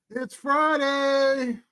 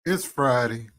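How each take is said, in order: First: High, slow, stretched-out Friday call; drawn-out excited call. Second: Said in the usual way. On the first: Acted.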